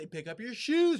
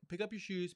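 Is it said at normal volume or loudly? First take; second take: loudly; normal. First: It is said loudly, with rising volume. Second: It is said at a normal volume.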